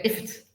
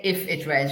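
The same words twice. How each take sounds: First: "if it" run together as one short word; linked words. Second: "if it" said as two separate words; unlinked words. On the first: Teacher demonstrating linking words, "if it" run together. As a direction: squeeze "if it" into a single quick word. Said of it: "linking words". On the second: Teacher showing what not to say, "if it" unlinked. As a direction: keep "if" and "it" apart. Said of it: "when you don't say". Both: Shown as a demonstration.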